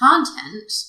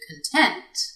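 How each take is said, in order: First: The stress is on the first syllable. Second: The stress is on the second syllable. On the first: It is a noun. "the noun content has the stress placed on the first syllable" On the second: It is an adjective. "the adjective content has the stress placed on the second syllable"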